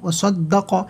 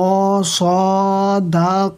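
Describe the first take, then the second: First: The vowels are kept short. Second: The vowels are drawn out long. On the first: The speaker calls it right. "বিনা টেনে পড়তে হবে" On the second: The speaker calls it wrong. "এমন ধরনের কোনো টানই হবে না"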